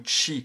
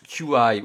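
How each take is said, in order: First: The term is said as a single word. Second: The term is spelled out as two letters. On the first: The speaker calls it right. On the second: The speaker calls it wrong.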